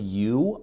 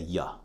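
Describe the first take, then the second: First: The word has a full, clear vowel. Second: The word has a short, weak vowel. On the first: "The word you" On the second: "I'll often say ya"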